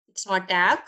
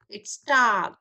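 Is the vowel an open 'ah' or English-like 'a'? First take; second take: English-like a; open ah. First: The vowel is a flat English-like 'a'. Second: The vowel is an open 'ah' sound. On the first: The speaker calls it wrong. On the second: The speaker calls it right. "Ah. Ah. It's tag"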